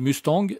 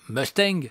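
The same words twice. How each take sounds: First: It is said with a French accent. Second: It is said with an American accent. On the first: "nous on dit Mustang" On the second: "eux ils disent Mustang"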